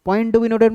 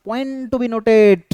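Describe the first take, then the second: First: Said in the usual way. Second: Drawn-out emphasis. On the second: Real, not acted. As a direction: POINT TO BE NOTED, stretched very slowly. Teacher flags a key point. (টেনে টেনে, জোর দিয়ে বলা)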